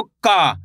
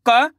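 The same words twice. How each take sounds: First: "का" with a long held aa; slow, lengthened "का"; drawn-out vowel. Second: Said in the usual way. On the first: Shown as a demonstration. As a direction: stretch the aa in "का" and let it fall. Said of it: "आ की मात्रा लगी तो". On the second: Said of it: "इसको simple पढ़ रहे".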